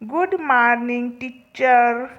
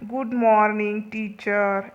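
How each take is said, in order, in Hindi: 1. यह नकल किया हुआ, असामान्य उच्चारण में बोला गया है। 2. यह सामान्य, रोज़मर्रा के उच्चारण में बोला गया है। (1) "तो मालती कैसे बोलती थी" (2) "अभी देखो जनरली हम लोग कैसे बोलते हैं"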